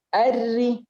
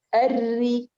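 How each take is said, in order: The two takes are said the same way.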